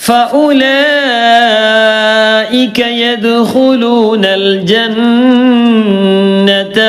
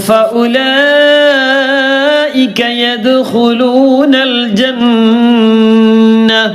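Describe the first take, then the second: The two takes are said the same way.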